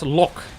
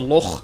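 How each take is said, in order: First: The word ends with a hard K sound. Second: The word ends with a throaty rasping sound. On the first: "Lock is set as lock" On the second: "In Dutch, we actually say it's a log"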